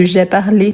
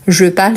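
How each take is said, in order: First: "parlé" with the final é sounded; past-tense pronunciation. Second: "parle" with a silent final e; present-tense pronunciation. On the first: Teacher contrasts past with present, "parlé" ending on a sounded é. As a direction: say "parlé" in two syllables, ending on é. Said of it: "c'est différent de". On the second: Teacher contrasts present with past, "parle" ending on the consonant. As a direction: say "parle" as one syllable, ending on the l. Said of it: "ça change le ton verbal". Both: Shown as a demonstration.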